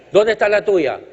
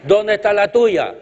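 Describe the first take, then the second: No difference in how they are said.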